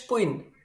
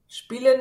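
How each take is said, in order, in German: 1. Es wird im bayerischen Dialekt gesprochen. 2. Es wird im Standarddeutschen gesprochen.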